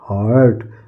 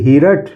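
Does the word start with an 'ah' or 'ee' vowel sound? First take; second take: ah; ee. First: The vowel sounds like a long 'ah'. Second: The vowel sounds like 'ee' before the r. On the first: The speaker calls it right. "नहीं हार्ट" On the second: The speaker calls it wrong. "हीरट नहीं"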